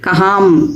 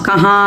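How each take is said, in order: First: The word ends with a closing m sound. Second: The word ends in a nasalized vowel. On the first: The speaker calls it wrong. "அப்படியெல்லாம் நம்ம சொல்லிட்டு இருக்கிறோம்" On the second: The speaker calls it right. "நம்ம மூக்கு வழியாக அந்த ஒலியை கொடுக்கணும்"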